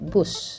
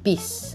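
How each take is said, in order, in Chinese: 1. 这个词的元音是 'oo'。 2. 这个词的元音是 'ee'。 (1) "珍贵的印尼就是bus" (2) "但是一般是印尼人说成bis"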